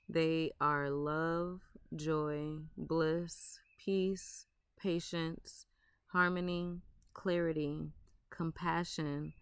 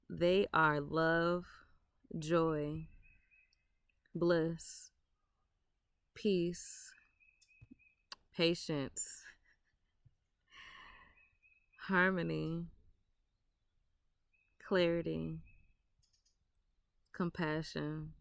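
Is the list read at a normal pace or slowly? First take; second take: normal; slowly. First: The words are read at a normal pace. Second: The words are read slowly.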